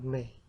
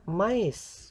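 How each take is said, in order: First: The vowels merge into one sound, one syllable. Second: The vowels are sounded separately, as two syllables. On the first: The speaker calls it wrong. "bukan me" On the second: The speaker calls it right. "kita ucapkan mais"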